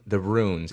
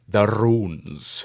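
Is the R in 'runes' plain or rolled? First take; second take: plain; rolled. First: The R in runes is plain, not rolled. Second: The R in runes is rolled. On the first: The speaker calls it wrong. "you're saying it wrong" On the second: The speaker calls it right. "You must roll the R's"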